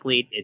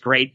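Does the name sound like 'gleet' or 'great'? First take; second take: gleet; great. First: It is said with an L and an 'ee' vowel. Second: It is said with an R and an 'ay' vowel. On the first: The speaker calls it wrong. "it's not Gleet" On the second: The speaker calls it right. "It's Great"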